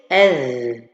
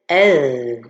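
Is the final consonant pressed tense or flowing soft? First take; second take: soft; soft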